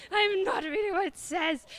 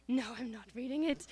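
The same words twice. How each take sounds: First: Loud, high-pitched comic yell; mock tantrum refusal. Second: Restrained, complaining refusal; mock sulky refusal. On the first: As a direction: blow up in hammed-up stubborn protest. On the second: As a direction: refuse like a sulky kid, not yet yelling. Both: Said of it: "'cause I was complaining".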